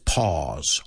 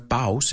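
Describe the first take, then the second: First: The vowel sounds like 'aw' in awesome. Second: The vowel does not sound like 'aw'. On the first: The speaker calls it right. "it's pause. Aw, like awesome" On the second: The speaker calls it wrong. "No es pause"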